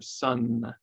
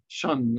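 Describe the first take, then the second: First: The word begins with a clear s sound. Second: The word begins with a sh sound. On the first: The speaker calls it right. "instead of sun" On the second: The speaker calls it wrong. "a lisping distortion"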